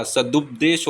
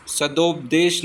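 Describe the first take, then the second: First: सदुपदेश with "dup" in the middle; short u after d in सदुपदेश; correct u vowel. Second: सदोपदेश with "dop" in the middle; wrong o vowel. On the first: Teacher giving the correction, सदुपदेश with "dup". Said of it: "सदुपदेश होता है". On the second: Teacher showing the mistake, सदोपदेश with "dop". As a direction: say long o in सदोपदेश. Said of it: "सदोपदेश नहीं होता". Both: Shown as a demonstration.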